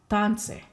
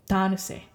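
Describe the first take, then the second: First: The word is said with only two syllables. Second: The word is said with three full syllables. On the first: "when I shorten it, I drop one of the I's" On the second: "normally with those three syllables"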